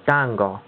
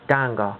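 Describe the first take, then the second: No difference in how they are said.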